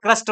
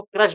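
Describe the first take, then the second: First: "क्रस्ट" with a clear st at the end; correct term crust. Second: "क्रश" ending in sh, no t; students' mispronunciation. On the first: Shown as a demonstration. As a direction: finish "क्रस्ट" on a crisp t after the s. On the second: Retold or imitated. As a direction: imitate students saying "क्रश" for crust. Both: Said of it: "बहुत से बच्चे इसको क्रश बोलते हैं".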